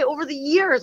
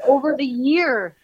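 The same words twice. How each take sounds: First: "over the years" where "years" comes out blurred like "year"; a tongue-tied "years"; fumbled plural. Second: "over the year" said slow and amused, no s on "year"; playful self-mock of "year"; singular slip laughed at. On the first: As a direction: trips on the s of "years". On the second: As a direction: lean into the mistake "year". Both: Shown as a demonstration. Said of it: "I can't even say over the years".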